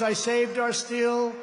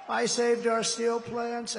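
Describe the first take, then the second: First: I saved our steel, slow and deliberate; stress on saved. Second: "saved" drawn out again, slow; stress on saved. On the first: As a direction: lean on "saved" slowly. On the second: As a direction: slowly press "saved". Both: Real, not acted. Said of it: "repeated slower".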